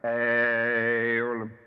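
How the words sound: The word is drawn out in a resonant intoning voice. "or if one vibrates this way"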